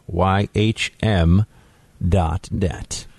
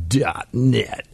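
First: Radio voice. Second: Said in the usual way. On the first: Acted. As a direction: drop into a radio announcer voice. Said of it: "got all radio, radio voice on you". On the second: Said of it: "I don't know why I just got all radio".

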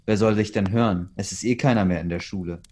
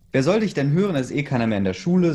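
First: Said in the usual way. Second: Higher, louder, fast sneering taunt; mocking laugh voice. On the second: A narrator's reading. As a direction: jeer at her, rushing the words. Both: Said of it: "sagte er lachend".

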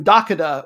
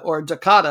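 First: "Dakota" as TAH-kuh-duh, weight on the opening syllable; Dakota, stress first syllable. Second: "Dakota" as tuh-KAH-tuh, weight on the middle syllable; Dakota, stress middle syllable. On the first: Podcast host trying out a team name for listeners, first-syllable stress. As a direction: lean on the front of "Dakota", let the rest fall away. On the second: Podcast host correcting his own team-name reading, middle-syllable stress. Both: Shown as a demonstration. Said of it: "getting my emphasis on the right syllable".

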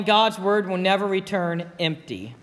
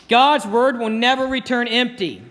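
First: Softer, settled repeat of the key line; quiet restatement. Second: Firm, ringing statement of the key line; emphatic declaration. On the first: Preacher to congregation, gently repeating the key verse. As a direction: let it land gently as a conclusion. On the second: Preacher to congregation, proclaiming the key verse. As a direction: proclaim it to the whole church. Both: Shown as a demonstration.

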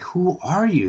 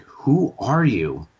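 First: Much higher, disbelieving; high, incredulous question. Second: Slow, searching question; slow, puzzled question. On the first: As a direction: pitch it up in disbelief. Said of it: "And they're like". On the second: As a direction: ask it slowly, as if puzzled. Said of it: "they're like". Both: Retold or imitated.

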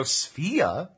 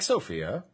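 First: "Sofia" squeezed to "Sfia", first vowel dropped; clipped name Sfia. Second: "Sophia" with the first vowel sounded, "so-FEE-a"; full name Sophia. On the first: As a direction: say "Sofia" as two syllables, "SFEE-a". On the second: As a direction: say all three syllables of "Sophia". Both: Shown as a demonstration. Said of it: "It's like Sophia".

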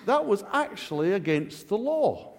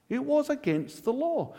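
First: Said in the usual way. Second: WAS lifted high and hit hard; stress on WAS. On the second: Shown as a demonstration. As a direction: lean on the word was.

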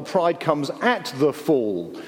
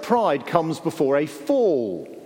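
First: "at" picked out with emphasis; stress on at. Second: Said in the usual way. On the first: Shown as a demonstration. Preacher correcting the old saying, stress on "at". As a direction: lean on "at" as the corrected word.

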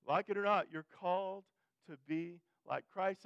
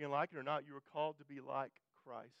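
First: Repeated louder and higher, the last words slowed; emphatic preacher's repeat; preaching louder. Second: Said in the usual way. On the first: Real, not acted. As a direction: drive the line home from the pulpit. Preacher repeats the line with force.

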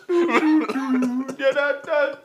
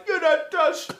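First: Very slow, drawn-out high laughing taunt; mock taunt. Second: High, laughing mock taunt. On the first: Repeating the taunt, dragged out slow through laughter. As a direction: stretch every word out mockingly. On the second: Mocking the Dubai fighter in a high laughing voice. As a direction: squeal it out through laughter.

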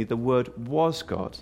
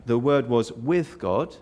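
First: "was" picked out firmly before "God"; stress on WAS. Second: "with" picked out firmly in "was with God"; stress on WITH. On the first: Preacher making the second point to listeners, stress on "was". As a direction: lean on "was" to assert identity. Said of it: "but also, secondly". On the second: Preacher pointing out a distinction to listeners, stress on "with". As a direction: lean on "with" to set it apart. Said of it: "did you catch that?". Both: Shown as a demonstration.

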